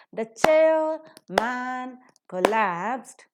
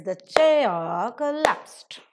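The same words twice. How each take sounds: First: CHAIR, MAN and col-LAPSED each dragged out separately with full stress; very slow, louder, word by word, MAN as heavy as CHAIR; no rhythm. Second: Two loud, even beats, CHAIR and col-LAPSED; slow and stretched, stressing CHAIR and the end of COLLAPSED; maintained rhythm. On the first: Teacher shows the sentence with no rhythm, equally stressed words. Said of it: "there is no rhythm in the expression". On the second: Teacher demonstrates the rhythm that is maintained, stressed beats. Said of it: "the rhythm that is maintained is". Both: Shown as a demonstration.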